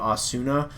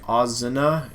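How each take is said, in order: First: The middle consonant is an s sound. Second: The middle consonant is a z sound.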